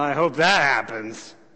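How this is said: It is said in a doubtful, skeptical tone. The speaker does not expect it to happen.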